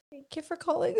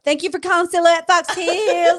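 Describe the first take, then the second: First: Soft, mumbled phone greeting; shy first try at the store greeting; timid greeting. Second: Put-on high, bright, loud phone greeting with her accent; excited store greeting. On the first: Retold or imitated. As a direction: say it like a nervous new hire. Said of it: "No, you have to sound way more excited". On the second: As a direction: sell it like the boss demands. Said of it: "but with her accent".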